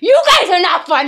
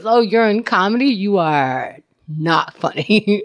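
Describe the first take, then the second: First: Mock indignant retort. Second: Mock deadpan verdict. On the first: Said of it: "I'm like". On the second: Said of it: "no one's gonna".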